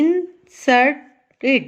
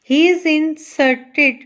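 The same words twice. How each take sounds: First: "inserted" as in... ser... ted with pauses; three separate syllables. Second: Said in the usual way. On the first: Shown as a demonstration. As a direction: break "inserted" slowly into three parts. ("inserted" तीन हिस्सों में, रुक कर) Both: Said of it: "ये three इसके parts बन गए".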